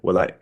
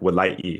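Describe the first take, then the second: First: A glottal closure is followed by a voiceless release. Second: The vowel is clearly voiced, with a glottal catch. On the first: "you get that kind of closure and like this release. But it's not like nothing is voiced" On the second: "with like a very clear E there, and then and it has like glottalized sound"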